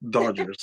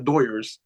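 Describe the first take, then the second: First: The middle consonant is a D sound. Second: The middle consonant is a Y sound. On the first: The speaker calls it right. "that's exactly how you say it" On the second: The speaker calls it wrong. "Not Doyers / the Y Doyers"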